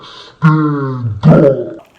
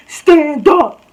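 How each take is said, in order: First: Low, loud, drawn-out bellow; mock raised voice. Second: High, loud mock shriek; mock raised voice. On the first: Tiny girl orders student up, low mock bellow. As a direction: imitate her with a deep, overblown roar. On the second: Tiny girl starts raising her voice, high mock shriek. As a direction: imitate her yelling, pitched way up. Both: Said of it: "like, raise her voice".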